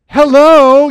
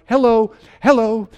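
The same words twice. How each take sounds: First: Very loud, high, drawn-out hello; alarmed yell. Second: Raised, higher call for attention. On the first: Father when nobody responds to the emergency, alarmed yell. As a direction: yell down the corridor for help. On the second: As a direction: call out for someone to respond. Father calling for absent medical staff. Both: Acted.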